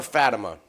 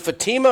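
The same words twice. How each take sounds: First: Fatima said FAT-uh-muh; stress on first syllable. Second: Fatima said fa-TEE-ma; stress on second syllable. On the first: Host offering the other pronunciation of a name, Fatima as FAT-uh-muh. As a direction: hit the first syllable of Fatima, short "a", weak middle. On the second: Host asking how to pronounce a fighter's name, Fatima as fa-TEE-ma. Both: Shown as a demonstration. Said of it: "Is it Fatima or Fatima".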